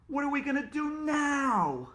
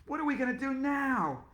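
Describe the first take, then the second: First: Panicked question. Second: High panicky wail; panicked question. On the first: Panicked teacher. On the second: Teacher freaking out about refunds, high panicked question. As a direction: ask it in a panic. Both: Acted.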